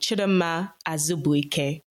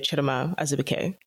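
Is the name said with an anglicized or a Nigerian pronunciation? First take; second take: Nigerian; anglicized. First: The name has a Nigerian Igbo pronunciation and melody. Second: The name has a plainer, anglicized pronunciation. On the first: It is said to a fellow Nigerian. "my full name to my fellow Nigerians would be" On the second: It is said to someone who is not Nigerian. "To the non-Nigerians, I would just say"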